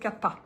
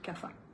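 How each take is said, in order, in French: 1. Le mot se prononce à l'indienne. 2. Le mot se prononce à la française. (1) "ceux qui connaissent bien l'Ayurveda et qui parlent à l'indienne, ils disent Kapha" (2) "je prononce à la française, il y a un P H"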